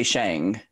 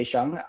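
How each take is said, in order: First: Shang with a longer, fronted "a" vowel; personal pronunciation. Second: Shung with an "uh" vowel, as in hung; native-speaker pronunciation. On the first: Guest telling hosts their own name, personal pronunciation of Shang. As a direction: say Shang as in Li Shang from Mulan. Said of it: "for me, I say Shang". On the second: Guest explaining how native speakers say the name, native-speaker pronunciation of Shung. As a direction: say Shung as Mandarin speakers would. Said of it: "would say Shung". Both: Shown as a demonstration.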